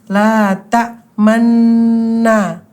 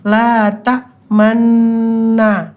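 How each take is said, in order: No difference in how they are said.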